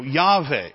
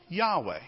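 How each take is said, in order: First: Yahweh said with a V, "YAH-vay"; V pronunciation. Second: Yahweh with a W glide, "YAH-way"; W pronunciation. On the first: Preacher showing the Modern Hebrew form, V pronunciation. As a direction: say Yahweh with V replacing the W. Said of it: "they have a V sound". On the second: Preacher teaching the congregation the name, W pronunciation. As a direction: say Yahweh softly, with a W in the middle. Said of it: "and it's pronounced this way". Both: Shown as a demonstration.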